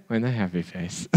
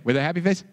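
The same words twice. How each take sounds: First: Put-on With a happy face. muttered lower and softer by a sulky kid; grudging reply. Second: Said in the usual way. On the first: Shown as a demonstration. Kid answering a parent, sulky and quiet.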